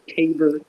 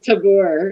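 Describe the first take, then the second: First: The name is given a plain, local pronunciation. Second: The name is given a fancy, French-like pronunciation. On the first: This is how the place is really called. "It's Tabor" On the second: It makes the place sound grander than it is. "that makes it sound so fancy than it actually is"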